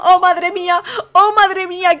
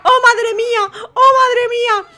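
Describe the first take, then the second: First: Lightly voiced dismayed contestant; a touch of fake despair; mock upset contestant. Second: Hammed-up wailing contestant. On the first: Commentator voices contestant 67 lamenting her friend, lightly voiced. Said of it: "ya está diciendo". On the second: Commentator re-voices the contestant losing her friend, hammed-up wail. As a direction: overplay the despair.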